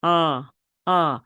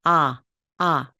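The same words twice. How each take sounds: First: 아 with the jaw dropped, deep and heavy. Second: 아 very slowly, light and bright. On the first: Teacher showing the deep, dropped-jaw 아. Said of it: "약간 깊은 소리, 좀 무거운 소리". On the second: Teacher showing the light Korean 아. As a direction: sing out a light, cheerful 아. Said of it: "굉장히 가벼우면서도 명랑합니다". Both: Shown as a demonstration.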